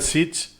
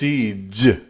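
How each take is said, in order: First: The final consonant is voiceless. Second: The final consonant is voiced. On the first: The speaker calls it wrong. "I said siege" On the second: The speaker calls it right. "It's voiced"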